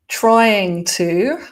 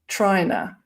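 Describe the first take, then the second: First: Both words are pronounced fully and separately. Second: The words are blended into one reduced word.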